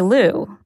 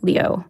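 First: Lou, the anglicized way she says her name; anglicized pronunciation. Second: Leo, the true pronunciation of her surname; real Chinese pronunciation. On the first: Reporter introducing herself with her anglicized last name. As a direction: say Lou as the English version of the name. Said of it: "That's the anglicized version". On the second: Reporter showing the real way to say her surname. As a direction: say Leo as it is really pronounced in Chinese. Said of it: "How you really pronounce it is". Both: Shown as a demonstration.

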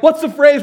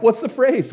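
First: Much higher and louder, bursting to know; excited pleading question. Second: Keen and raised, leaning in to hear; eager question. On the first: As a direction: beg for the answer, almost shouting. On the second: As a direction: ask it on the edge of your seat. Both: Retold or imitated. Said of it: "We're on the edge of our seats".

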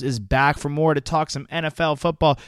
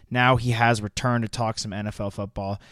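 First: Hyped announcer, rising energy; grand entrance announcement. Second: Said in the usual way. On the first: Acted. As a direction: announce the guest like a star. Hyped intro of guest.

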